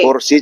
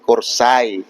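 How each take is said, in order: First: It ends in a plain i vowel. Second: It ends in an ai diphthong. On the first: "kalau bahasa Jawa kursi" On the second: "Bahasa Osing kursai"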